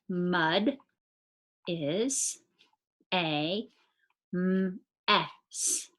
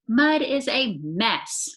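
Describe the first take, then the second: First: It is said plainly, without excitement. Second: It is said with excitement.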